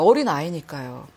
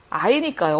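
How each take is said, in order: First: 어린 leaned on, falling at the end; 어린 said with emphasis, then a falling close; stress on 어린. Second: Said in the usual way. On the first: Shown as a demonstration. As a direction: press the word 어린 to stress young.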